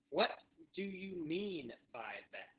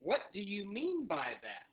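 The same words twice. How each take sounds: First: Very slow, pause after "What"; drawn-out repeat-after-me delivery; slow teaching model. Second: Said in the usual way. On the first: Shown as a demonstration. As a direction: break "What do you mean by that" into careful words. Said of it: "so say that with me". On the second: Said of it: "another one that you could say".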